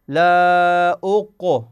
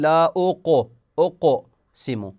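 First: أق stretched with a vowel colour after the ق; wrong vowelled qalqala. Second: أقسم with the ق drawn out slowly; slow qalqala demo. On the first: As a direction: slowly drag the ق into a vowel. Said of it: "شوفوا". (قلقلة محولة إلى حركة) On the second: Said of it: "تحولت إلى فتحة". (نطق بطيء للقاف) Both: Shown as a demonstration.

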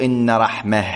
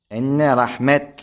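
First: "رحمة" ending in h, raħmah; the form they did not say, with final ha; pausal ha ending. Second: "رحمة" ending in t, raħmat, slowly; final t kept. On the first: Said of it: "لم يقولوا". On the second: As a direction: stop "رحمة" on a clear t. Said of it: "بالتاء". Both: Shown as a demonstration.

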